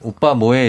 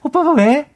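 First: It is said in a natural, normal-pitched voice. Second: It is said in a voice pitched one tone higher.

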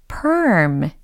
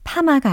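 First: It is said as one syllable with an R sound. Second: It is said as pama, with no R sound. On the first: The speaker calls it right. "중간에 R 사운드가 들리니까 꼬이잖아요" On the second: The speaker calls it wrong. "파마가 아니고"

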